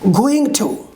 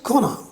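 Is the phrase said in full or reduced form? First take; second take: full; reduced. First: Both words are said fully and separately. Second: The words are shortened and blended together. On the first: "complete form" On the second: "The reduction form is gonna"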